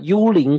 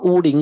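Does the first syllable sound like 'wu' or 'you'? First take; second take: you; wu. First: The first syllable sounds like 'you'. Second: The first syllable sounds like 'wu'. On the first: The speaker calls it wrong. "这是我发音错了" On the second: The speaker calls it right. "谢谢Esther，我读到"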